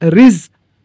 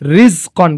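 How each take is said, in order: First: The word ends without a final n sound. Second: The word ends with a final n sound. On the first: The reader stops at this word. "ওয়াকফের কারণে এখানে উচ্চারণ হবে হচ্ছে রিজ ক" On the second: The reading continues without stopping.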